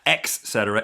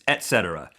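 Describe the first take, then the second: First: The first word begins with an x sound. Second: The first word begins with a t sound. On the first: The speaker calls it wrong. "not ex cetera" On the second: The speaker calls it right. "It's et cetera. There's no X"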